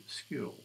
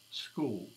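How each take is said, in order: First: "school" with a short, flattened vowel close to "skill", said slowly; New South Wales school. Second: "school" with a long, rounded oo vowel, said slowly; South Australian school. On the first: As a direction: clip the vowel in "school" toward "skill", NSW style. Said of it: "in New South Wales, they say school". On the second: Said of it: "the South Australians say school". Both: Shown as a demonstration.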